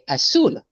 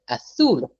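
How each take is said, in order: First: The middle consonant is a plain s sound. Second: The middle consonant is a lisped th sound. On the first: This is how it is said in South America and Mexico. "They don't bother with the theta" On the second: This is how it is said in Spain. "In Spain, they say azul for blue"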